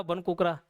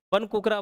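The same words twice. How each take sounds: First: Said in the usual way. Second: बन कुकरा stressed on कुकरा; emphatic naming. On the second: Shown as a demonstration. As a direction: call out बन कुकरा firmly like a teacher. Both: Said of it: "बटेर पक्षी हो गया".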